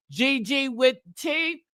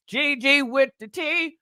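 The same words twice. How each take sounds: First: Said in the usual way. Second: Shouted out with hype. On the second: Shown as a demonstration.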